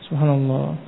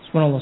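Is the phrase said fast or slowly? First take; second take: slowly; fast. First: It is said slowly, one repetition at a time. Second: It is said quickly, run together in rapid repetition. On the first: The remembrance is done with reflection on its meaning. The speaker calls it right. "Kan tapi satu-satu" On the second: The remembrance is rushed without reflecting on its meaning. The speaker calls it wrong. "Terlalu cepat"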